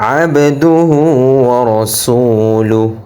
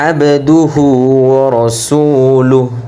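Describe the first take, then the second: Both takes have the same delivery.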